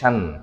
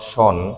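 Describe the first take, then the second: First: The vowel sounds like 'ah'. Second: The vowel sounds like 'oh'. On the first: The speaker calls it right. "উচ্চারণ হয় শান" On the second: The speaker calls it wrong. "Not শন"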